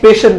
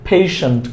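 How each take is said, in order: First: The word is said in a local, non-standard way. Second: The word is said in standard English form. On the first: The speaker calls it wrong. "পেশেন্ট না" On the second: The speaker calls it right. "সঠিক করে যদি বলি"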